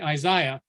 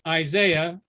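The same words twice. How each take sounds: First: It is said with a British pronunciation. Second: It is said with an American pronunciation. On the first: "the Brits say Isaiah" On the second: "we say Isaiah"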